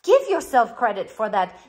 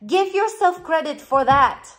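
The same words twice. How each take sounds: First: Said in the usual way. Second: "yourself" lifted and pushed in "Give yourself credit for that"; urging "Give yourself credit for that" with "yourself" stressed. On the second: Shown as a demonstration.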